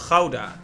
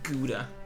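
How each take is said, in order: First: Gouda is said with a native Dutch pronunciation. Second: Gouda is said with an English pronunciation. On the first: This is the cheese's real name. The speaker calls it right. "Even though it's Gouda" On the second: This is how English speakers name the cheese. The speaker calls it wrong. "only Anglophones really call it Gouda, so it hurt a little bit to say it like that"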